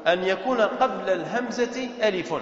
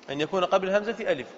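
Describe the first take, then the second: First: Measured dictation pace. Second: Fast run-through of the rule; brisk recap; quick repeat. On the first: Teacher dictates rule, then repeats. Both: Shown as a demonstration.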